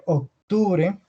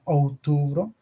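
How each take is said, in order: First: Slow "octubre" with sounded c; Spanish month name. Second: "outubro" with ou and no c; Portuguese month name. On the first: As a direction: say "octubre" slowly, c before t, final e. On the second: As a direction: open "outubro" on ou, end in o. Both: Shown as a demonstration. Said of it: "sería para outubro".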